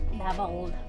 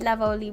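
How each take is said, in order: First: The name ends on the 'l' sound. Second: The name ends with an added 'ee' sound. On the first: The speaker calls it right. "Stop adding an I when there's no I" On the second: The speaker calls it wrong. "I said it wrong again"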